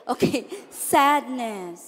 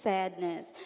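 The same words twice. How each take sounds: First: Said in the usual way. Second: Soft, low, sorrowful word; sad voice. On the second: Shown as a demonstration. Teacher shows sadness to the class, soft and low. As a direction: let it sink with sadness. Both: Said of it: "let's say it with emotion".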